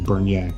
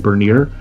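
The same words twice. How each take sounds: First: The name is said with a French pronunciation. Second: The name is said with an American pronunciation. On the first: "the French, the proper pronunciation is Bernier" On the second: "in the United States, they say Bern. You see, it would say Bernier"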